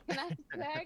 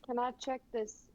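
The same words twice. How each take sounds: First: Higher-pitched southern twang, laughing. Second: Said in the usual way. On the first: Shown as a demonstration. Player jokingly redoing the question in a southern twang. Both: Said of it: "I almost said it in a southern twang".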